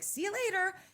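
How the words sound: It ends brightly, with a lively sparkle.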